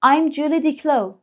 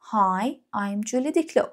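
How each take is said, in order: First: Slow, higher model line; slow, higher I'm Julie Diclo; voicing the girl. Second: Said in the usual way. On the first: Shown as a demonstration. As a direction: read it like the girl in the book. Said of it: "این دختر گل گفته". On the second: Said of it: "repeat for learners".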